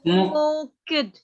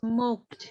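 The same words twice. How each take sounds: First: The ending is said as an extra syllable. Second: The ending is said as just a t sound. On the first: The speaker calls it wrong. "Kamu jangan gini" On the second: The speaker calls it right. "e-nya nggak dibaca jadi smoked"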